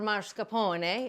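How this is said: The word is said with an Italian accent.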